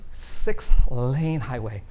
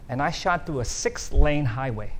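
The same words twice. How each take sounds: First: Six-lane highway drawn out slow and louder; slow emphatic repeat. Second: Said in the usual way. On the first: Real, not acted. Preacher stresses the danger to the congregation, slow and loud. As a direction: let Six-lane highway sink in, each word slow.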